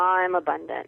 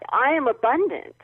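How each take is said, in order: First: It is said flatly, without energy. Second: It is said with strong feeling and energy.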